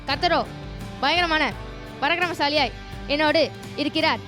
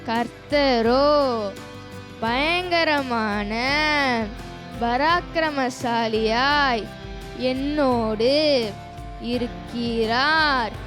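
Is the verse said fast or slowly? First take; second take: fast; slowly. First: The verse is said at a fast pace. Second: The verse is said at a slow pace. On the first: "நான் வசனத்தை வேகமாக சொன்னால்" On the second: "அடுத்து நான் ஸ்லோவாக சொல்லும் போது"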